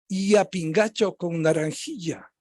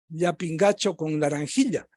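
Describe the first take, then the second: First: The ll sounds very soft, like a light y. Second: The ll sounds like a softened affricate. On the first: This is how Quito speakers under twenty say it. "más suave aún, casi como los peruanos" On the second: This is how Quito speakers aged twenty to fifty say it. "a lo quiteño de menos de cincuenta y más de veinte"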